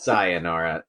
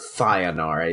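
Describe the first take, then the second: First: The s is a clear, plain s sound. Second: The s is lisped, sounding like th. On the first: The speaker calls it right. "first off, it's Sayonara" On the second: The speaker calls it wrong. "I don't have a lisp. It's not Sayonara, you dumbass"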